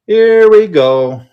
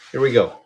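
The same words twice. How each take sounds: First: Higher, louder, slow drawn-out hype; hype announcer call. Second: Said in the usual way. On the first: Real, not acted. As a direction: stretch it out like a live auction kickoff. Hyped repeat as auction goes live.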